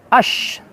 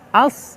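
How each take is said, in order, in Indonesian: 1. Konsonannya adalah bunyi sh yang mendesis. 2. Bunyi s-nya berat dan emfatis. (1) "atau pakai shin, salah ya" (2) "lagi-lagi huruf shad terasa"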